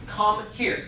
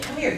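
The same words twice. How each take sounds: First: It sounds stern, cold and threatening. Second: It sounds warm, friendly and inviting. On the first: The listener would rather not come. "Yeah, I'm not going to come" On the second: The listener gladly wants to come. "And you're like, oh, I definitely want to come"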